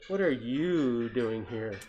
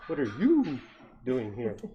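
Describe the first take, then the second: First: It is said in a plain reading voice. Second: It is said in a hooting owl-like voice.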